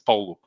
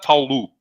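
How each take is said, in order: First: The name is said with some sounds swallowed. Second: The name is said fully, every sound clear. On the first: The speaker calls it right. "You have to eat it a little" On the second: The speaker calls it wrong. "It's not Paulo"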